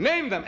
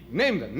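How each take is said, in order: First: Name them pitched higher, pressed home; emphatic repeat. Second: Said in the usual way. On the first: Acted. Preacher urging the crowd, name them higher and emphatic.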